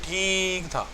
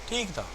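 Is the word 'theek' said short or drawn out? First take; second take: drawn out; short. First: The word 'theek' is stretched out long. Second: The word 'theek' is said short and plain. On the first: The food was actually not good. "लंबा ठीक हो गया तो ठीक नहीं था" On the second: The food was acceptable. "अब ठीक का मतलब है मुनासिब था"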